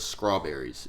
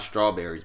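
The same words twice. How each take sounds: First: The word begins with an 'skr' sound. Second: The word begins with an 'str' sound. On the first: The speaker calls it right. "It's spelled S K R A" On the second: The speaker calls it wrong. "not strawberries"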